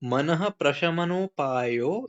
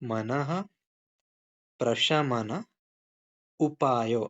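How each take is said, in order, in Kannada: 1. ಪದಗಳು ಒಟ್ಟಿಗೆ ಸೇರಿ ಒಂದೇ ಹರಿವಿನಲ್ಲಿ ಹೇಳಲಾಗಿದೆ. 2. ಪದಗಳ ನಡುವೆ ವಿರಾಮ ಇಟ್ಟು ಬೇರೆ ಬೇರೆಯಾಗಿ ಹೇಳಲಾಗಿದೆ. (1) "ಫುಲ್ ಪ್ರೊನೌನ್ಸ್ ಮಾಡೋದು" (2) "ಸ್ಪ್ಲಿಟ್ ಮಾಡಿ ಓದೋಣ"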